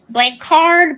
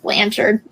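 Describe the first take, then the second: First: The name gets a fancy, foreign-sounding pronunciation. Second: The name gets a plain, simple pronunciation. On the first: Others misread the name. The speaker calls it wrong. "Because they'd be like" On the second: This is the name's real pronunciation. The speaker calls it right. "it's just Blanchard. ... nothing fancy about Blanchard"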